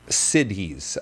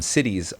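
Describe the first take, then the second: First: Each sound of the word is said carefully. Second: The word is said quickly, sounding like cities.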